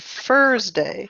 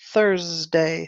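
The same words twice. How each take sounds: First: It starts with an f sound. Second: It starts with a th sound. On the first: The speaker calls it wrong. "you said with a F sound" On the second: The speaker calls it right. "So be careful with that word"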